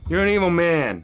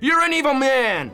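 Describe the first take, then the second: First: It is said mildly, without real anger. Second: It is said with real anger.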